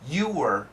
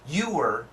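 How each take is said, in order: No difference in how they are said.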